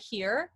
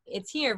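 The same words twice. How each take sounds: First: "here" dropped down on the cords; unresonant, throat-only "here"; placed in the throat. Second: Resonant, forward "here"; lifted, facial placement on "here"; placed in the face. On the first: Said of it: "versus just, like, here". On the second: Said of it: "it's here versus just, like, here". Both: Shown as a demonstration.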